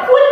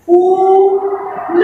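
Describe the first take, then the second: First: फुल with a short clipped उ; फुल, short उ sound. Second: फूल with a long drawn-out ऊ; फूल, ऊ held long and slow. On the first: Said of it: "छोटी आवाज बोलेंगे तो ये बन जाएगा". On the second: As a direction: stretch the ऊ in फूल very slowly. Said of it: "लंबी आवाज". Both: Shown as a demonstration.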